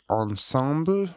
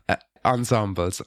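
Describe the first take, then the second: First: Ensemble said the French way, nasal on-SAHM-bl; French pronunciation. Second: Said in the usual way. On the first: Real, not acted. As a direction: Ensemble with French vowels, stress on the last syllable. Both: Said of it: "it sounds bad with a French accent".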